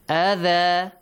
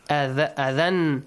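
First: The word ends with a long a vowel. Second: The word ends with an n sound. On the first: The reader stops at this word. "if you stop at a word that ends with tanwin fatha, the tanwin fatha say it changes to? Alif mad" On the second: The reader carries on to the next word. "Tanwin fatha"

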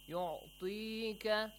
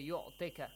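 First: The 'ee' vowel is held long. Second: The 'ee' vowel is clipped short. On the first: The speaker calls it right. "we have يعطيك which is ya madi" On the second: The speaker calls it wrong. "So don't say يعطيك. يعطيك is wrong"

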